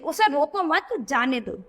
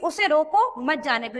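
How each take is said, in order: First: The pause comes right after 'mat'. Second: The pause comes right after 'roko'. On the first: Do not stop him, let him go. "मत के बाद अगर ये अल्प विराम लगा दिया गया" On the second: Stop him, do not let him go. "इसमें ये क्या कह रहा है कि उसे रोको मत जाने दो, यानी ये जो बच्चा है ये जा रहा है, उसको रोको।"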